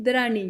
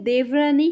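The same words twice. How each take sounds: First: दरानी contracted, no v; Punjabi pronunciation. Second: देवरानी in full, with dev sounded; Hindi pronunciation. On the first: Teacher showing the Punjabi in-law word, Punjabi pronunciation. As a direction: run d into r in दरानी. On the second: Teacher showing the Hindi in-law word, Hindi pronunciation. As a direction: say all of देवरानी, v included. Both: Shown as a demonstration. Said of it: "थोड़ा बोलने में फ़र्क है".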